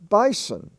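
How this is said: It is said in an Australian accent.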